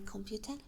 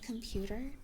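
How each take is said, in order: First: It is pronounced the Hungarian way. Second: It is pronounced the English way. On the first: "which is just how we say it in Hungarian" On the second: "instead of computer"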